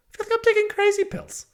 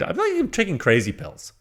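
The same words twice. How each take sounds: First: Much higher, hammed-up squeal on "taking crazy pills"; high movie-quote squeal. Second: Said in the usual way. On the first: Reviewer hams up his frustration to viewers, high squeal. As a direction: throw it up high like the famous movie line.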